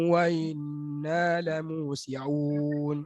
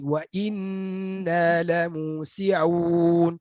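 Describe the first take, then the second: First: The glottal stop is softened toward a vowel. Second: The glottal stop is pronounced fully and clearly. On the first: The speaker calls it wrong. "Jangan baca macam ni" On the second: The speaker calls it right. "bunyi hamzah a i u"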